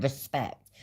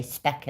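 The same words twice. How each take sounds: First: Said in the usual way. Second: "spec" for respect, first syllable dropped; "spec" as a mate's shortened respect; clipped slang word. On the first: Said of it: "and she meant respect". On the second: Retold or imitated. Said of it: "used to say".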